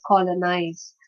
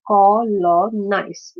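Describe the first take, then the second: First: Said in the usual way. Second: "Colonize" very slowly, syllable by syllable; "Colonize" as three separate, slow syllables; split into three syllables. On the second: Shown as a demonstration. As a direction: break "Colonize" into three drawn-out beats. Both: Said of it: "Which is a three syllable word".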